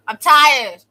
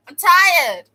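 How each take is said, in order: First: Loud, higher, worn-out cry; fed up. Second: Even higher, loud, breaking plea; more fed up. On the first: Venting to viewers about detention, a loud fed-up cry. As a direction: shout the tiredness out. Repeating the complaint. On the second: Venting to viewers again, a higher loud wail. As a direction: push it up into a wail. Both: Real, not acted.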